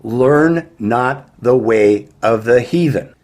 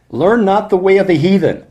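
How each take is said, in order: First: Slow, weighty repeat with "Learn" and "heathen" leaned on; slow emphasis. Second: High, loud proclamation of "Learn not the way of the heathen"; proclaimed scripture. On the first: Preacher hammering the verse home to listeners, slow and emphatic. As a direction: drag out "Learn not the way of the heathen" word by word. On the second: Preacher reading the verse to his flock, raised and loud. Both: Shown as a demonstration. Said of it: "Let me really emphasize what he said here".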